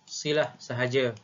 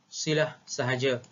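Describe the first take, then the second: No difference in how they are said.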